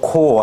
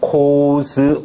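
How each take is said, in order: First: The word ends without any final z sound. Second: The word ends with a clear z sound. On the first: It refers to one army corps. "코 하나의 군단" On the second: It refers to several army corps. "코즈 군단들"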